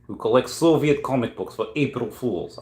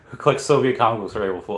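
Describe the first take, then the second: First: It is read in a put-on Russian accent. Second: It is read in the speaker's ordinary accent.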